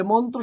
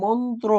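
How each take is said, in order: First: Said in the usual way. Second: মন্ত্র said apart, carefully articulated; careful teacherly মন্ত্র; pronunciation demo. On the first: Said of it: "শব্দের উচ্চারণ কি হবে". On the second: Shown as a demonstration. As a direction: model মন্ত্র distinctly for students. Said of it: "মন্ত্র শব্দের উচ্চারণ কি হবে".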